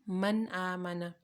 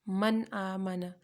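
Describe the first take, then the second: Both takes have the same delivery.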